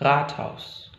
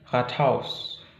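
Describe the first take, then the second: First: The stress is on the first syllable. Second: The stress is on the second syllable. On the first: The speaker calls it right. "tapi Rathaus" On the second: The speaker calls it wrong. "Bukan Rathaus"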